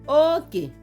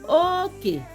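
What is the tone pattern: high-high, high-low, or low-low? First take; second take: high-low; high-low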